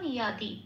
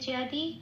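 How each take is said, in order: First: The word begins with a Y sound. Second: The word begins with a J sound. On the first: "তাহলে শব্দটার উচ্চারণ পেলাম ইয়াদি।" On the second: "এটা আমি বাংলায় বললাম।"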